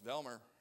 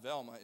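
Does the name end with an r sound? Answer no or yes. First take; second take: yes; no. First: The name ends with an r sound. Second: The name ends in a plain vowel. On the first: This is how locals say the name. The speaker calls it right. "it's Velmer. You better say it right" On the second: This is how newcomers say the name. The speaker calls it wrong. "her name is not Velma"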